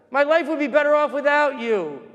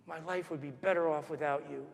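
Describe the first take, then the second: First: High, raised-voice tirade; imitated angry shouting. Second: Very soft retold insult; hushed echo. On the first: Mother railing at the boy behind her, imitated shouting. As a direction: berate as the shouting woman would. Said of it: "and she's shouting". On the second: Boy hears his mother ahead of him, hushed echo. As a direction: replay the cruel words under the voice.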